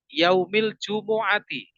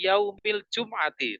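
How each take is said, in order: First: An u vowel follows the m before ain. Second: The m directly joins the following ain sound. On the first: The speaker calls it right. "Harusnya kan min yaumil jumu'ati" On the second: The speaker calls it wrong. "Imam-imam di masjid-masjid itu saya sering mendengar begitu"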